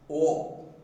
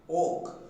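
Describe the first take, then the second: First: The vowel sounds like an O. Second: The vowel sounds like an O.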